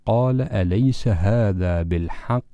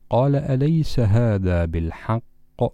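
First: The final q sound is held and disappears. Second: The final q sound is released with a bounce. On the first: The speaker calls it wrong. "وتذهب القاف لا ندري إلى أين" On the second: The speaker calls it right. "عندما وقفنا على كلمة بالحق القاف بما أنها كانت ساكنة لذا ينبغي أن تقلقل"

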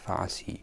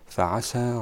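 First: The word ends with a long ee vowel. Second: The word ends with a long a vowel. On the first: The speaker calls it wrong. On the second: The speaker calls it right.

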